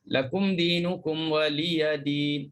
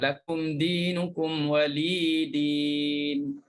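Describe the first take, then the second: First: It is said with a 'ya' before 'din'. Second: It is said without a ya before 'din'. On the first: "untuk hafs" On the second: "Untuk apa ni, syu'bah"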